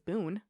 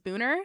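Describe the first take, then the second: First: The name ends without an added 'er' sound. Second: The name ends with an added 'er' sound. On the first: This is how the name looks when written. The speaker calls it wrong. "it looks like it's Boone" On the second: This is how local people say the name. The speaker calls it right. "It's it's Booner"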